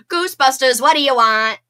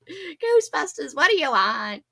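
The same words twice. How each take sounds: First: A loud, punchy take on the movie line; loud movie-line impression; movie quote impression. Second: Slower, lighter second try at the quote; half-hearted movie-line impression; softer retry of the movie line. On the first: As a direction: shout it like the film. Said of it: "Like from the movie". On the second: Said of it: "I can't do it so good".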